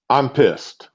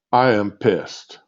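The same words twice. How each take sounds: First: Said in the usual way. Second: Slow, with "am" drawn out and hit hard; stress on am. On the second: Real, not acted. Ranting on his phone, slowly leaning on "am". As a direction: spell out "I am pissed" word by word, leaning on "am".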